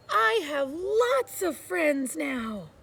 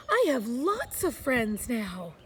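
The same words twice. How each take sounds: First: Louder, slow and proud; very loudly. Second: Said in the usual way. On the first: A narrator's reading. Little Beaver shouting his joy across the pond, loud and slow. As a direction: announce it slowly to the whole pond. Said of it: "he said it again, very loudly". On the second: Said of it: "he said".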